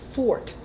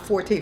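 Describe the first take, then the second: First: The word is said as one syllable, fort. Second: The word is said as two syllables, for-tay. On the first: It refers to a person's strength. The speaker calls it right. "It's fort" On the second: It is the music term. The speaker calls it wrong. "not forte"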